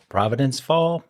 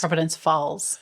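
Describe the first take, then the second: First: "Fall" with the final s dropped; FALLS without its S. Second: "Falls" with a clear final s; corrected FALLS. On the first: Real, not acted. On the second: Shown as a demonstration. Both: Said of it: "Sound like you said fall".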